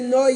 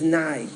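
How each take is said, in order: First: The final syllable has an 'oh' vowel. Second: The final syllable has an 'ah' vowel. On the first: The speaker calls it right. "To say Noi at the end" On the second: The speaker calls it wrong. "Not to say Ado and then to finish it with Nai"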